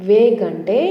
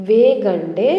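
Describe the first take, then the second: No difference in how they are said.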